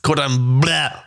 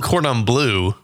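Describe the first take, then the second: First: Bleu is said with a French vowel sound. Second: Bleu is said like the English word blue. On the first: The speaker calls it right. "It's Cordon Bleu" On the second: The speaker calls it wrong. "You can't call it Cordon Bleu because it's not spelled blue"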